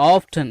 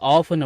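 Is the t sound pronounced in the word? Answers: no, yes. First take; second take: yes; no. First: The t sound in the middle is pronounced. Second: The t sound in the middle is silent. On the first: "ஆஃப்டன் அப்படின்னு கூட உச்சரிச்சுக்கலாம்" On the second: "ஆஃபன் அப்படின்னு கூட உச்சரிச்சுக்கலாம்"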